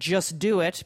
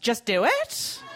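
First: The voice falls at the end. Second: The voice rises at the end.

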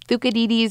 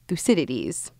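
First: The name is said in a Greek-like way. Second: The name is said in an English-like way. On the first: "is more like the Greek pronunciation" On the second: "You may have learned it as"

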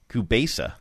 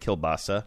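First: No 'l' sound is heard before the 'b'. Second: An 'l' sound is heard before the 'b'. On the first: "But I like this kubesu thing" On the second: "So that's closer to how I say it"

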